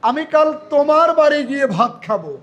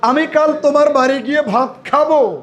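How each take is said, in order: First: The word তোমার is stressed. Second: The word খাবো is stressed. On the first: It is at this particular person's house. "এই যে তোমার, তার মানে এখানে তোমার কথাটাকে যুক্ত, মানে জোর দিচ্ছি" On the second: Eating is the action that will happen. "আরেকটা ভার্বের উপরে একটু জোর দেই, খাওয়ার উপরে"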